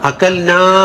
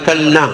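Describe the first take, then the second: First: The final vowel is held long. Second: The final vowel is cut short. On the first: We ate. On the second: A group of women ate.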